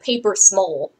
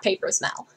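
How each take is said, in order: First: The last word has the vowel of "hole". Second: The last word has the vowel of "bell".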